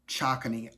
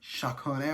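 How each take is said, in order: First: The title is read out literally, as spelled. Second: The title is said roughly the French way. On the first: The speaker calls it wrong. "I know that's not how you pronounce it" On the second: The speaker calls it right. "It's like Chakone or whatever"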